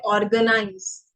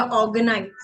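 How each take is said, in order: First: ऑर्गेनाइज with the R sounded after the first vowel; common mispronunciation. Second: ऑर्गेनाइज with the R dropped, "awganize"; silent R. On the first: Retold or imitated. Teacher imitating how many people say it, R sounded. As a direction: pronounce the R clearly in ऑर्गेनाइज. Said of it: "बहुत सारे लोग गलत बोलते हैं". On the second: Shown as a demonstration. Teacher giving learners the corrected word, R left silent. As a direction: leave the R out of ऑर्गेनाइज. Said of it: "आर हम नहीं use करते".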